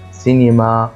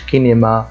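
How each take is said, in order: First: The word begins with an s sound. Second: The word begins with a k sound. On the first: The speaker calls it right. "زي كمان سينما" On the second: The speaker calls it wrong. "كمان ما قلتش كينيما"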